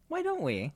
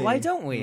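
First: The voice rises at the end like a question. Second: The voice falls at the end like a statement. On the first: The speaker calls it right. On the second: The speaker calls it wrong.

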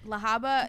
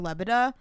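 First: The name is said as la-HA-ba. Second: The name is said as le-BE-da. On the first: This is the accepted pronunciation of the name. "I know that that's the right way to say it" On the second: This is how the name came out when reading it. "I call her Lebeda because, like, when I read it"

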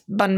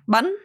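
First: The word is said with a level pitch. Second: The pitch rises through the word. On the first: "bun me without intonation" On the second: "With the intonation, it's bun, so it goes up"

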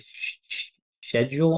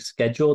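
First: The word starts with a 'sh' sound. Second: The word starts without a 'sh' sound. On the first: This is how another group says it. "they say sh schedule" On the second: This is how the speaker's own group says it. "instead of saying schedule"

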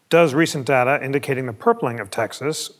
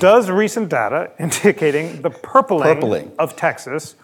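First: The phrase is read at a quicker pace. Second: The phrase is read slowly and carefully enunciated. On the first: The speaker calls it wrong. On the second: The speaker calls it right.

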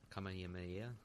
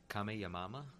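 First: The word ends with the syllables 'hameha'. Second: The word ends with the syllables 'hamama'.

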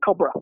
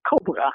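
First: The second syllable has a reduced schwa vowel. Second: The second syllable has a full vowel. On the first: This is the English pronunciation. "the second syllable in English is reduced. It's just a schwa" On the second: This is the Dutch pronunciation. "the second syllable has secondary stress"

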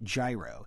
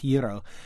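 First: It starts with an English consonant sound. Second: It starts with a Greek-like consonant sound. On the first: The speaker has little Greek influence nearby. "you're probably going to pronounce it gyro" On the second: The speaker lives near a strong Greek influence. "something like gyro"

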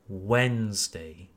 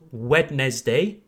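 First: The middle D and E are silent. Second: The middle D and E are pronounced. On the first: The speaker calls it right. "The D and following E are silent" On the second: The speaker calls it wrong. "Not Wednesday"

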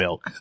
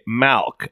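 First: The vowel sounds short and close, like 'ih'. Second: The vowel sounds open, like 'ah'. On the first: The speaker calls it right. "It's called milk" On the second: The speaker calls it wrong. "people that say malk instead of milk"

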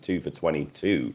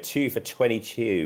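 First: It is said in a normal voice. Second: It is said in an imitated commentator's voice. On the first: The speaker calls it wrong. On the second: The speaker calls it right.

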